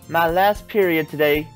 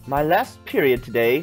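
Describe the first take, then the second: First: It is spoken in a Southern American accent. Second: It is spoken in an English accent. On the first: The speaker calls it wrong. "No, that's southern accent" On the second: The speaker calls it right. "English accent"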